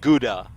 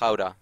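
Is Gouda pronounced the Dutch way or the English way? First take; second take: English; Dutch. First: It has an English-style pronunciation. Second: It has a Dutch-style pronunciation. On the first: This is how English speakers say it. The speaker calls it wrong. "you guys call like Gouda" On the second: This is how it is said in its home language. The speaker calls it right. "Which is actually pronounced Gouda. It's Dutch"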